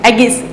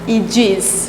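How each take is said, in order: First: The word begins with an 'ay' sound. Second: The word begins with an 'ee' sound. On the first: The speaker calls it wrong. "एगिस नहीं" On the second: The speaker calls it right. "क्या बोला जाता है? इजिस"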